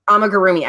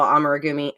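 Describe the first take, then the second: First: Amigurumi repeated carefully as "ama-gu-roomi"; corrected pronunciation. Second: Amigurumi said as a fumbled "ammer-gumi"; unsure pronunciation. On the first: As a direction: echo the correct Amigurumi, every syllable present. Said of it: "How do you say that?". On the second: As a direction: stumble through amigurumi, blurring the middle syllables. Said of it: "I never say it right". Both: Real, not acted.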